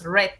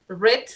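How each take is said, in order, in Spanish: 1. La vocal es corta, como en 'red'. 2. La vocal es larga, como en 'reed'. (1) "su pronunciación es como el color rojo" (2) "Ese es en presente simple"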